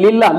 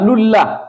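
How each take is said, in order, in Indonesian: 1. L pertama diucapkan dengan vokal i. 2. L pertama diucapkan dengan vokal u. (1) "Bukan lillah" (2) "Karena lamnya ngikut ke huruf dal"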